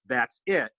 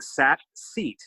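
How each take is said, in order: First: It is said in a plain English accent. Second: It is said in a heavy French accent.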